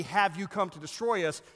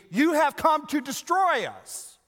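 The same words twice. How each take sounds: First: Said in the usual way. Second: "You have come to destroy us!" shouted high and loud, slow; exclaimed. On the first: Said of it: "It could be". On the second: Shown as a demonstration. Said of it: "It also could be".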